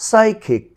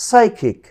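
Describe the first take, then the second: No difference in how they are said.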